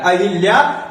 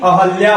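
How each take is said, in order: First: अहिल्या said "a-hil-ya"; short i after the h in अहिल्या; rejected pronunciation. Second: अहल्या said "a-hal-ya"; short a after the h in अहल्या; corrected pronunciation. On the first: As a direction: give अहिल्या a "hil" in the middle. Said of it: "अहिल्या नहीं होता है". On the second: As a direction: give अहल्या an open "hal" in the middle. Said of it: "अहल्या होता है". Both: Shown as a demonstration.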